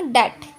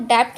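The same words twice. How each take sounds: First: डेट with only a t at the end; silent B. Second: डेप्ट with a "pt" ending; डेप्ट with both final consonants heard; mispronounced, B sounded. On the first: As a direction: say डेट with no b or p before the t. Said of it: "इसको पढ़ेंगे डेट". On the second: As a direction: say डेप्ट wrongly, sounding the letter before t. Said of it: "डेप्ट नहीं पढ़ेंगे". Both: Shown as a demonstration.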